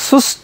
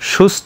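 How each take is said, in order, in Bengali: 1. শব্দটি সাধারণ 's' ধ্বনি দিয়ে শুরু হয়। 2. শব্দটি 'sh' ধ্বনি দিয়ে শুরু হয়। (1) "নট" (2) "দেখো শুরুতে এস এইচ"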